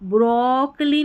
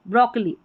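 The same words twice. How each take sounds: First: The first vowel is stretched out long. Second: The first vowel is kept short. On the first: The speaker calls it wrong. "ब्रोकली नहीं बोल रहे हैं" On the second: The speaker calls it right. "ओ की ध्वनि short है"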